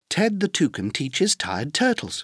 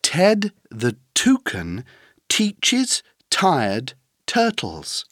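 First: The sentence is said at a fast pace. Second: The sentence is said at a moderate pace.

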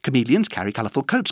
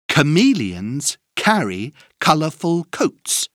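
First: It is said very fast. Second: It is said at a moderate pace.

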